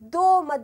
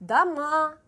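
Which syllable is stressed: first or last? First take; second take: first; last. First: The stress is on the first syllable. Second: The stress is on the last syllable. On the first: The speaker calls it wrong. "Eğer doğma dersiniz yanlış olur" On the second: The speaker calls it right. "Burada vurgu A üzerine geliyor"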